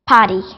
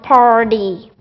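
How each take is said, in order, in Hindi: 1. R की ध्वनि छोड़ दी जाती है। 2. R की ध्वनि स्पष्ट रूप से बोली जाती है। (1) "if R is after a vowel, so they turn to drop it" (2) "you have to roll your tongue and speak it R"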